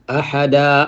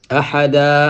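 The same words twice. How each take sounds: First: The word ends with an open 'a' sound. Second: The same.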